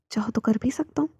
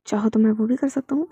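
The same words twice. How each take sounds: First: Whispered, playful and close; hushed flirty offer; teasing whisper. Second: Said in the usual way. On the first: Acted. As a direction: tease him in a hush. Teasing offer in intimate scene.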